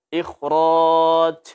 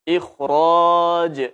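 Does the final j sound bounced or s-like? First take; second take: s-like; bounced. First: The final j leaks air like an s. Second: The final j is bounced with a clear release. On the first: The speaker calls it wrong. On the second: The speaker calls it right.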